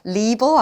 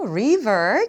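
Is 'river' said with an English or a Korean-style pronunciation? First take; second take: Korean; English. First: It is said with Korean-style sounds. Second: It is said with English sounds. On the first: The speaker calls it wrong. "리버 아니에요" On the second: The speaker calls it right. "river 기억하시고요"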